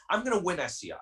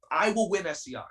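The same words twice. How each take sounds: First: Said in the usual way. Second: Will hit firmly, as a vow; stress on will. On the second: Real, not acted. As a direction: lean on the word will to correct yourself.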